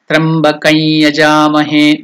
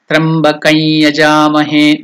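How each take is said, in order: First: The words are joined, with an -ai- sound between. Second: The same.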